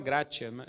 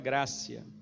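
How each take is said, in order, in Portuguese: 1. A consoante do meio soa como t. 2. A consoante do meio soa como s. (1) "o pessoal fala gratia, é porque escreve com T, mas não é gratia" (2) "ele tem som de C"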